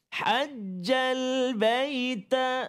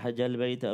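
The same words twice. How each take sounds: First: The phrase is said slowly with the doubled sound held. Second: The phrase is rushed and the doubled sound shortens. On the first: The speaker calls it right. "kena hati-hati" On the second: The speaker calls it wrong. "laju sangat"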